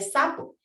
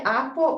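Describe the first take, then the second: First: The first consonant is an s sound. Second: The first consonant is left out entirely. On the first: The speaker calls it right. "en lugar de sapo" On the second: The speaker calls it wrong. "omite ciertos sonidos"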